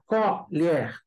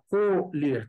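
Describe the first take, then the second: First: The stressed vowel is an open o. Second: The stressed vowel is a closed o. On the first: It is the noun meaning spoon. "timbre aberto" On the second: It is the verb meaning to harvest. "timbre fechado"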